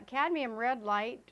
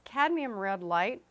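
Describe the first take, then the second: First: Cadmium red light with light slightly leaned on; stress on light. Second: Said in the usual way. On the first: Shown as a demonstration. Teacher stresses the word light so students get the right paint. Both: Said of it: "emphasis on the word light".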